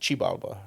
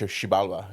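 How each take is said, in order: First: The word begins with a ch sound. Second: The word begins with a sh sound. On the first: This is how Nahuatl speakers say it. "if you speak Nahuatl, they would pronounce it" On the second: This is how Maya speakers say it. "the Mayan says"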